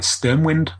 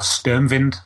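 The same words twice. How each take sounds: First: The word is said with an English pronunciation. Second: The word is said with a German pronunciation.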